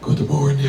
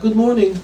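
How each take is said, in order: First: It is said in a very deep voice. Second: It is said in a normal voice.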